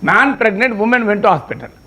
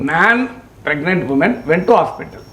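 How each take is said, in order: First: There is a pause right after 'pregnant'. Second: There is a pause right after 'man'. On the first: The man is pregnant and the woman went to the hospital. "మగవాడు గర్భం దాల్చాడు, మహిళ ఆసుపత్రికి వెళ్ళేది meaning వస్తుంది" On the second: A man and a pregnant woman went to the hospital. "Gap మార్చాం అంతే... meaning ఏమైంది, ఒక మనిషి ఒక గర్భిణీ స్త్రీ ఆసుపత్రికి వెళ్ళారు"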